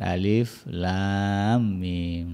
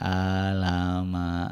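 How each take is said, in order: First: Each letter is said by its full name. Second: The letters are blended into one short word. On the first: The speaker calls it right. "Yang betul kan dibaca huruf-hurufnya" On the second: The speaker calls it wrong. "ada yang bacanya alama itu ya"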